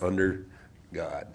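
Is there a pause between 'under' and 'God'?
yes. There is a pause between the two words. "instead of under God"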